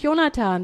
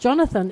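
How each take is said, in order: First: The name is pronounced the German way. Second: The name is pronounced the English way. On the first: The speaker calls it wrong. "der heißt nicht Jonathan" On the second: The speaker calls it right. "der heißt Jonathan, ist der Engländer bei Ihnen oder Amerikaner?"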